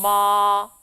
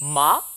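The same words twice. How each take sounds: First: The pitch stays high and long. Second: The pitch curls slightly upward. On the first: "일성은 높은 음을 길게 이어줍니다" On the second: "이성은요. 살짝 감아쳐 올라가는 느낌"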